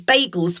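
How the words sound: The word is said with an American pronunciation. It is how people say it today. "which is more of an American pronunciation"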